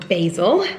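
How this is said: It is said with an American pronunciation.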